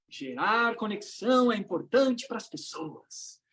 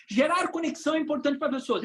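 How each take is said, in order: First: Slow, measured group-recitation delivery; audience repeating along. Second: Said in the usual way. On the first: Acted. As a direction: draw it out like a crowd reciting. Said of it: "Aí todo mundo repete aquela frase". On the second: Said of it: "repete comigo".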